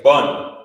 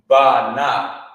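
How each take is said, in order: First: It is said as one joined syllable. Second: It is said as two separate syllables. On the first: The speaker calls it right. "You would say bun" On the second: The speaker calls it wrong. "you wouldn't say ba na"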